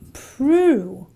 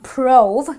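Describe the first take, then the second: First: The vowel is a long oo sound. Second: The vowel is not a long oo. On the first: The speaker calls it right. "the oo sound comes from the O" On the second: The speaker calls it wrong. "prove is not prove"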